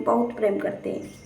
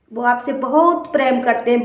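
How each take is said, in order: First: बहुत प्रेम करते हैं said much softer, fading away; fading to a hush. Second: Said in the usual way. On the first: Acted. Preacher to listeners about parents, fading to a hush. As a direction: let it die away, softly pleading.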